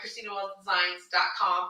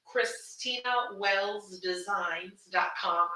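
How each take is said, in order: First: It is said fast. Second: It is said slowly.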